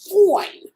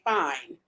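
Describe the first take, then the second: First: The word is drawn out with heavy emphasis. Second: The word is said flatly without extra emphasis. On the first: The speaker calls it right. "You gotta put that emphasis on the fine" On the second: The speaker calls it wrong. "You can't say fine"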